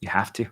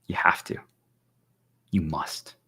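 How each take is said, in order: First: Said in the usual way. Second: Hushed, lower insistence; whisper. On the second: Real, not acted. To stream viewers, insisting they erase their past, whispered. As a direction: breathe the command like a secret. Repeats the command twice.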